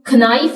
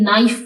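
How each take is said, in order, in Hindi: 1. यह शब्द एक साफ़ k आवाज़ से शुरू होता है। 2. यह शब्द सीधे n आवाज़ से शुरू होता है। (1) "इसको हम खनाइफ नहीं प्रोनाउंस करते" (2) "बल्कि नाइफ प्रोनाउंस करते हैं"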